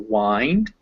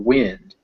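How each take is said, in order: First: The vowel is a long 'eye' sound. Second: The vowel is a short 'ih' sound. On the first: It means to twist, as in winding a clock. "I is most commonly pronounced like I, as in silent, kind" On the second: It means moving air. "I, as in give, minute"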